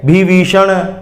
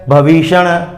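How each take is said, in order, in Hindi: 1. पहला अक्षर vi है। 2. पहला अक्षर bha है।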